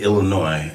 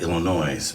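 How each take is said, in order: First: The final S is silent. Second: The final S is pronounced. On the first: The speaker calls it right. "I'm glad you said Illinois" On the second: The speaker calls it wrong. "add an S on there"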